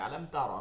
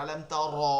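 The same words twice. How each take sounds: First: আলেম তারা with the র said as a single tap, no roll; correct Arabic ra. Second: আলেম তারা with the র rolled long like ডরর, a little louder; wrong rolled r. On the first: Teacher shows students the proper ra, single tap. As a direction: say তারা with one light tap on the র. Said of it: "র, এটাই পুর". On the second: Teacher mocks the common mistake for students, rolled r. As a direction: roll the র in তারা on purpose, as a mistake. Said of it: "ডরর উচ্চারণ করে". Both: Shown as a demonstration.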